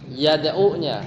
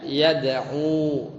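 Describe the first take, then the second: First: "Yad'u-nya" with the u kept short; short final vowel. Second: "yad'u" with the final u held long; long final vowel. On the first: Teacher names the jussive word, short u. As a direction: keep the u brief in "Yad'u-nya". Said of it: "kalau mannya dibuang bacanya". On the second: Teacher shows reading without man, long u. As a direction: stretch out the u of "yad'u". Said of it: "panjang, ada wawunya". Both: Shown as a demonstration.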